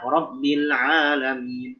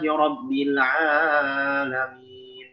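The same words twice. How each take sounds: First: The vowel is held for two beats. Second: The vowel is stretched to three beats. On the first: The speaker calls it right. "itu sudah dua harokat" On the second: The speaker calls it wrong. "itu udah jadi tiga sebenarnya"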